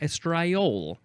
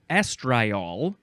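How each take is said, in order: First: The stress is on the second syllable. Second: The stress is on the first syllable. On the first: "you can emphasize the second syllable" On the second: "the emphasis is at the beginning"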